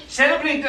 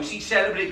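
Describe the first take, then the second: First: "Celebrating" higher and louder with a falling end; "Celebrating" flung out louder, indignant; emphatic repeat. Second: Said in the usual way. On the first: Acted. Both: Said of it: "Celebrating, I say".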